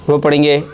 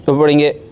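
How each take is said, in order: Both takes have the same delivery.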